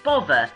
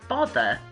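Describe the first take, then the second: First: The middle consonant is a v sound. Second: The middle consonant is a th sound.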